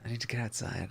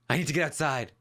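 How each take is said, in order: First: It is said with little fervor, subdued. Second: It is said with strong, intense fervor. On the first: The speaker calls it right. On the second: The speaker calls it wrong.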